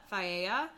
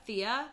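First: Thia said as thigh-AY-uh, three syllables; pronounced thigh-AY-uh. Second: Thea said as THEE-uh, two syllables; pronounced THEE-uh. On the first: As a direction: say Thia starting like "thigh", then AY-uh. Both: Shown as a demonstration. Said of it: "I'm gonna say her name is pronounced".

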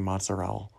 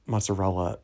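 First: Mozzarella with the final A dropped; pseudo-Italian pronunciation. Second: Mozzarella with the final A sounded; standard pronunciation. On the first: Retold or imitated. Mocking Tony's pseudo-Italian, mozzarella cut to "mozzarell". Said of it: "you're not that Italian for pronouncing". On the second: Shown as a demonstration. Correcting Tony, mozzarella said in full with its ending. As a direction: say all four syllables of mozzarella. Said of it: "in, like, your pseudo-Italian accent".

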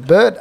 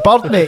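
First: "Bird" with a rounded "ur" vowel, as in standard English; imitating a visitor echoing "Bird"; puzzled outsider's "bird". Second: "Bird" said like "budd", pitched higher; retold local answer, "Bird" as "budd"; Glaswegian "bird". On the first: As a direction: repeat "Bird" back, puzzled, without the Glasgow vowel. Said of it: "He's like". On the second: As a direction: insist on "Bird, mate" with the local short vowel. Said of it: "I'm like".

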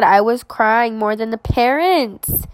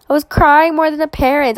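First: Said in the usual way. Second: Emphatic repeat. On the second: Real, not acted. Laughing at how much she cried at the graduation, higher and emphatic. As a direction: say it again, amazed at herself.

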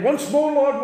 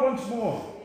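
First: Louder, higher commanding cry of Once more; proclaiming Once more to God; bold declaration. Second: Said in the usual way. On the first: Shown as a demonstration. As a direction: call it out as a demand, not a plea. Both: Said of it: "I didn't sing that begging God".

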